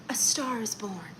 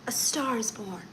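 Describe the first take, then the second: First: Whispered A star is born. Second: Said in the usual way. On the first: Shown as a demonstration. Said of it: "repeating phrase, some whispered". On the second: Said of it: "repeating phrase, plain take".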